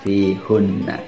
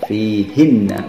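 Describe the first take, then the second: First: The vowel after the h is u. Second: The vowel after the h is i. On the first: The speaker calls it wrong. "bukan fihunna" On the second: The speaker calls it right. "maka akan dibaca fihinna"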